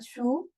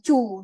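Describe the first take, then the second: First: It begins with an s sound. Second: It begins with a ch sound. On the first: "bukan su" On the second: "bukan cu"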